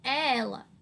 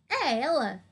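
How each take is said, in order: First: It is said as a calm, certain statement. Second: It is said as a doubtful question. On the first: The speaker is sure who it is. "é uma certeza" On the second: The speaker is unsure who it is. "Então é uma dúvida"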